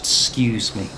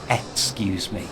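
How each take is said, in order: First: The first 'ex' syllable is dropped. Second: The first 'ex' syllable is fully pronounced. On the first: It sounds friendlier. "excuse me without the X, well, it just sounds friendlier" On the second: It sounds less friendly. "and not excuse me"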